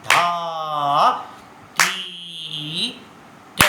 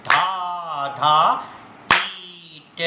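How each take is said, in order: First: Each bol धा, ती, ट spoken slowly with long gaps; slow, spaced-out syllables; slow tabla bols. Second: धा, धा, ती, ट recited twice as fast; quick, clipped-together syllables; double speed bols. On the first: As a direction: recite the bols at a slow vilambit pace. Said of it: "अभी हमने बोला था विलंबित लय में". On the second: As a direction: rattle off the bols at double speed, dugun laya. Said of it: "बजाएंगे double speed में". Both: Shown as a demonstration.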